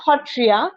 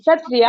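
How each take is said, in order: First: The word begins with an h sound. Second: The word begins with an s sound. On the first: This is the traditional local pronunciation. "in traditional Assamese way, we we pronounce it as Hotriya" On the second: This follows the written spelling. "not Satriya"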